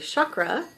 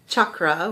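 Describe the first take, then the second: First: The word starts with a soft ch sound. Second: The word starts with a hard ch sound. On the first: This is the common popular pronunciation. "that's the common popular way of saying it" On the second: This is the original ancient pronunciation. "which is the uh, ancient way of saying it"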